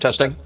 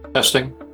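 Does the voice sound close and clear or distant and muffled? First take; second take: close; distant. First: The voice sounds close and clear. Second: The voice sounds distant and less clear. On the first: The speaker calls it right. "It's much better now. You sound more like yourself" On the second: The speaker calls it wrong. "You do sound a little bit like you're further away from your mic than usual"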